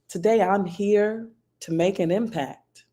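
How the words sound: It is said with warmth and empathy. "say that phrase with warmth"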